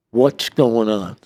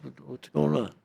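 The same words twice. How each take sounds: First: Slow, loud acted demand; demanding question. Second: Higher, softer puzzled question; puzzled protest. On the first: FBI agents question the inmate they pulled out, demanding. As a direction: press for an answer, slowly and forcefully. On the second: Retold or imitated. Inmate asks the raiding agents what is happening, puzzled. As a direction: act out a taken-aback question.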